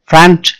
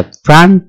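First: ফ্রন্ট said with a rounded O, "front"; ফ্রন্ট as "front", rounded vowel; wrong pronunciation. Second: ফ্রন্ট said with an open A, "frant"; ফ্রন্ট with an open "ah"-like vowel; corrected pronunciation. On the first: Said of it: "উচ্চারণটা কিন্তু ফ্রন্ট না". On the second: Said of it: "উচ্চারণ হচ্ছে ফ্রন্ট". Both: Shown as a demonstration.

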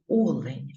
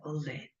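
First: "олень" with first syllable stressed, O-len; correct stress on first syllable. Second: "олень" with second syllable stressed, o-LEN; wrong stress on last syllable. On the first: Teacher showing pupils the correct stress, first-syllable stress on "олень". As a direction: say "олень" with a firm opening O. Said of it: "Правильно казати олень". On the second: Teacher citing the mistake to avoid, final-syllable stress on "олень". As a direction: softly give "олень" with stress moved to LEN. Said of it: "а не олень". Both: Shown as a demonstration.

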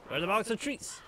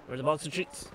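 First: Higher, lilting pet-talk question; playful singsong rise on treats; sing-song. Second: Said in the usual way. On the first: Acted. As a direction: coo it like asking a dog.

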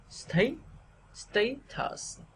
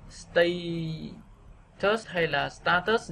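First: "stay" rising high, then "tus" dropping; stressed first syllable. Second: "status" read by the spelling, evenly weighted; mistaken reading. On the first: Teacher modelling, "status" with a rising first syllable. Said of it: "thì chúng ta sẽ". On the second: Teacher showing what to avoid, "status" evenly stressed. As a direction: say "status" without a clear stressed syllable. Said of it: "thay vì là". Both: Shown as a demonstration.

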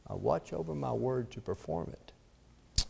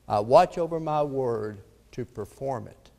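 First: Much softer, measured echo of the verse; hushed repetition. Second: Said in the usual way. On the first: Acted. Preacher repeating God's word to Jeremiah, hushed and deliberate. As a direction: let it sink in quietly.

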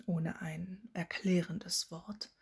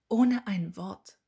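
First: Slow, measured correction of the phrase; resume slowly, spelling out the amended phrase; mildly pointed, unhurried restatement; deliberate restart. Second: Loud, drawn-out cutting remark; can't-resist jab, loud and deliberate; pointed interjection. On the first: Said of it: "Dann setzte er noch einmal an". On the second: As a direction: cut in pointedly, louder and slower. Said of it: "Sie konnte sich das nicht verkneifen". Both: A narrator's reading.

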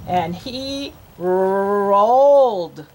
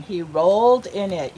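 First: ROLLED with a long stretched r, very slow; drawn-out word. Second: Said in the usual way. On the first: Shown as a demonstration. Teacher acts out the pig rolling in mud, word drawn out. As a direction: roll out the start of "rolled" at length.

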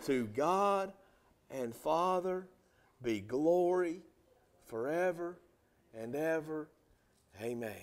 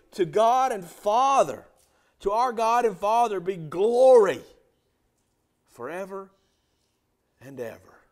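First: Slow unison reading. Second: Loud, ringing sermon delivery; preaching at full force. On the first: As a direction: read it slowly together with the church. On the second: Pastor preaching loudly to his congregation about saints. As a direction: preach it out to the whole church. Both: Shown as a demonstration. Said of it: "Will you read that verse with me?".

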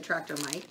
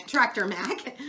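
First: Tractor Mike misread with Mike; reading the name wrongly as Tractor Mike. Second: Tractor Mac read correctly as Mac; self-correcting to Tractor Mac; corrected name. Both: Real, not acted. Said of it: "Ma-, Tractor Mac".

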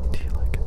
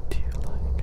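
The two takes are said the same way.

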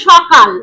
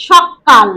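First: Said in the usual way. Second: সকাল said as শক্কাল with a doubled k; stressed double consonant. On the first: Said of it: "এই বিশেষ ব্যঞ্জনটির উপর শাসাঘাত দিয়ে ফেলেছি". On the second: Shown as a demonstration. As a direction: press hard on the ক in সকাল so it sounds twice. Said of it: "দুটো ক উচ্চারিত হলো".

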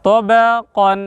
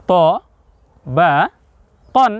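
First: "ত বা কন" joined into one drawn-out word; linked reading of "ত বা কন"; all together. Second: "ত ... বা ... কন" each said separately; split-up reading of "ত বা কন"; syllable by syllable. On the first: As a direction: say "ত বা কন" connected, without stopping. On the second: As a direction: pause after "ত" and after "বা", then "কন". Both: Shown as a demonstration. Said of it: "একসঙ্গে".

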